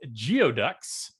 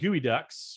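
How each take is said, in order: First: The word begins with a 'gee-oh' sound. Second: The word begins with a 'gooey' sound. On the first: The speaker calls it wrong. "I always say geoducks" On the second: The speaker calls it right. "I pronounce gooey ducks"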